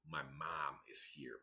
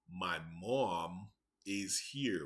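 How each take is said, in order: First: It is said in a Chicago accent. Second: It is said in a California accent. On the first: "But in Chicago, the mom, M O M, we would say mom" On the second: "So from California, they would say"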